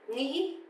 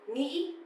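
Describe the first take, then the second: No difference in how they are said.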